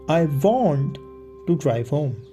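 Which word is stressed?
want. The word "want" is stressed. The speaker insists on really wanting it. "I'm insisting I actually want to do it"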